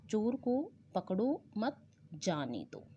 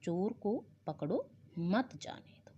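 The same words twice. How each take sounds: First: "पकड़ो मत" run together, pause, then "जाने दो"; pause after मत. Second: Slow "चोर को पकड़ो", pause, then "मत जाने दो" together; pause after पकड़ो. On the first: Teacher quoting the policeman's misplaced pause, "पकड़ो मत" joined, break before "जाने दो". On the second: Teacher showing where to stop, pause after "पकड़ो", then "मत जाने दो". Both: Shown as a demonstration. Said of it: "जबकि उसे रुकना कहाँ चाहिए था".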